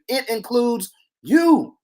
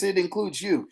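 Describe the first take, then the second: First: It includes you, slow and loud, stress on you; slow emphasis. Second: Said in the usual way. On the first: Shown as a demonstration. Preacher tells the congregation, slow emphatic stress on you. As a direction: lean hard on you, slowly.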